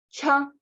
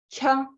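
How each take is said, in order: No difference in how they are said.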